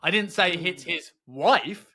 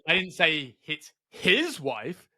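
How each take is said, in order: First: The stress falls on the word wife. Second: The stress falls on the word his. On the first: Someone else in his family was hit. "could mean his son" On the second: Someone else's wife was hit. "I mean it could have hit someone else's wife"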